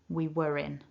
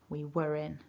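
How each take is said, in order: The two takes are said the same way.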